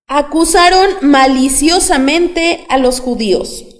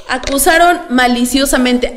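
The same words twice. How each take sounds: First: Drawn-out reading, stressing "Acusaron"; slow emphatic reading. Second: Said in the usual way. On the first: Shown as a demonstration. Preacher reads the verse slowly with the congregation, stressing "Acusaron". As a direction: read "Acusaron maliciosamente" slowly, leaning on "Acusaron". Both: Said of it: "vamos a leer de nuevo todos juntos".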